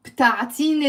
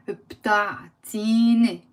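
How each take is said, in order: First: Said in the usual way. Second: بتعطيني stretched out, "bta... tiii-ne"; slow, long-vowelled بتعطيني for learners; slow demonstration. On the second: Shown as a demonstration. Teacher breaking down the request for learners, بتعطيني said slowly. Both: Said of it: "Let's say slowly".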